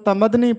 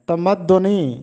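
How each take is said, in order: First: It is said 'tamadni' with a single d. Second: It is said 'tamaddunī' with a doubled d. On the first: The speaker calls it wrong. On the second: The speaker calls it right.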